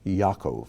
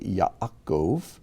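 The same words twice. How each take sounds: First: The name is said quickly and runs together. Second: The name is said slowly and carefully. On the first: "we usually say it so quickly" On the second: "how you would pronounce it slowly"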